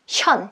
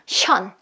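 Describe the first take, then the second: No difference in how they are said.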